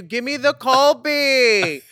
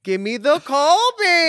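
First: Photographer's call. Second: High, slow shouted command; photographer yelling. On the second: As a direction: call out the pose across the studio. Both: Retold or imitated. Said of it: "a Videla yells at you".

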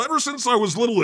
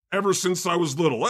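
First: Repeated quickly, pitched higher and more urgent; dramatic echo. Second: Quick, earnest recital of the line; dramatic reading. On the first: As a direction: echo it higher, pushing forward. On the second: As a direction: rush through it like a stage poem. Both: Acted. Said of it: "a dramatic reading of Crazy".

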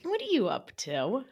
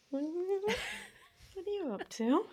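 First: Gently amused question; said lovingly. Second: Very high, slow, soft giggling coo; lovingly, laughing. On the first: Asking herself lovingly, light affectionate tone. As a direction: ask it with affection. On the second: Cooing to herself, slow high giggly tenderness. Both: Shown as a demonstration. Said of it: "I say it lovingly".

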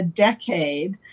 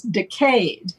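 First: Decade stressed on the first syllable, DECK-ade; usual American pronunciation. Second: Decade stressed on the second syllable, sounding like decayed; British pronunciation. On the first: Naming ten years of time, decade stressed on first syllable. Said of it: "but the British pronounce it". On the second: Showing how the British pronounce it, decade as decayed. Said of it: "the British pronounce it, uh, very explicitly as". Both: Shown as a demonstration.

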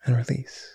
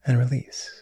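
First: Breathy whispered cue to let go. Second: Said in the usual way. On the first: Acted. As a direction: whisper the release softly.

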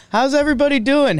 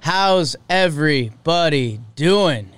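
First: Much higher and fast; pumped-up host welcome; excited greeting. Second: Slow, drawn-out welcome; easy, unhurried host greeting. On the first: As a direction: bounce the hello out with hype. Host greets the audience again. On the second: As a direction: stretch each word of the hello. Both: Real, not acted.

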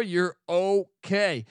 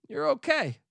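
First: Stretched out, slow and calm; slow reassurance. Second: Way up high, a sing-song you're okay; high reassurance. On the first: Telling the listener the store has them covered, slow and calm. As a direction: draw it out slowly to settle them down. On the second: Telling the angry listener it's fine, high and sing-song. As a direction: soothe yourself in a high, light voice. Reassuring after throwing sunglasses. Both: Acted.

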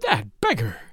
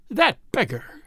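First: Exasperated mutter, pitched low; exasperated wife. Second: Exasperated repeat, pitched higher; exasperated wife. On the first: Narrator voices the wife repeating her insult, exasperated. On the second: Narrator voices the wife repeating her insult, more sharply exasperated. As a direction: say it over in rising exasperation. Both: A narrator's reading. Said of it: "His exasperated wife kept repeating".

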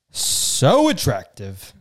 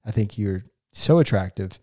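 First: "So attractive" drawn out, stressed on "So"; slow emphatic "So attractive". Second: Said in the usual way. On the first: Real, not acted. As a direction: stretch "So attractive" slowly, leaning on "So".

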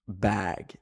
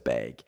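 First: "bag" with a short open a, as in cat; American pronunciation. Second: "bag" with a long ay, like "bayg"; Canadian pronunciation. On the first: Canadian showing what she switched to, American open-a "bag". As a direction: say "bag" slowly with an American vowel. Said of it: "So I started saying bag instead of bag". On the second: Canadian showing the word she dropped, "bag" as "bayg". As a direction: say "bag" low, rhyming with vague. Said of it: "instead of bag". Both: Shown as a demonstration.

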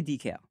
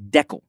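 First: "decal" with long "ee", as DEE-cal; long first vowel in "decal". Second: "decal" as DECK-ul, rhyming with freckle; short-E "decal", like deckle. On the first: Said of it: "I say decal". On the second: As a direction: say "decal" with short "eh" and swallowed ending. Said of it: "My wife from Regina". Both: Shown as a demonstration.

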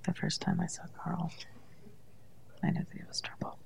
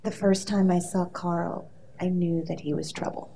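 First: Unvoiced whisper, barely moving mouth. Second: Dramatic read. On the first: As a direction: whisper it with your lips almost still. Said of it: "Just have to whisper". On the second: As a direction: read it like a soap opera line. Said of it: "I wanna give you a piece of dialogue". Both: Shown as a demonstration.

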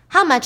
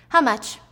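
First: "How much?" higher and louder, pushing hard; sharp demanding repeat. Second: Said in the usual way. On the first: Acted. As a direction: snap the question back, impatient. Teacher confronts rival.

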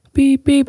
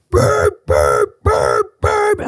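First: Mild beep imitation. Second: Imitating a blaring alarm, pitch jumping; frantic alarm beeps. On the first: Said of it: "And I'm not talking, like". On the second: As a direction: mimic the urgent house alarm. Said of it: "I'm talking".

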